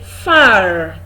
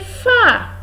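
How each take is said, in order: First: The final r sound is pronounced. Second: The final r sound is silent. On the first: The speaker calls it wrong. "You don't say far" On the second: The speaker calls it right. "The R is silent"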